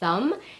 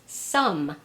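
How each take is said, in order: First: The word begins with a TH sound. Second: The word begins with an S sound. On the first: The speaker calls it right. "I mean the sound, as in the word thumb" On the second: The speaker calls it wrong. "or sometimes as an S"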